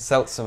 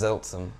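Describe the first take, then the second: First: The name begins with an S sound. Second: The name begins with a Z sound. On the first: The speaker calls it right. "S and Z" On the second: The speaker calls it wrong. "I guess you said it wrong"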